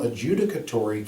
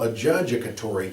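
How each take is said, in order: First: The word is said with its usual pronunciation. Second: The middle of the word sounds like 'judge'.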